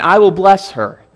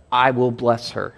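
First: "I will bless her" said high and loud, "her" stressed; repeated with emphasis. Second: Said in the usual way. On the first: Shown as a demonstration. Preacher repeating God's promise, stressing "her". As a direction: repeat it with force, landing on "her". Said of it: "he repeats it again". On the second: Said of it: "So twice God says of Sarah".

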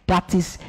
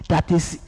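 No difference in how they are said.

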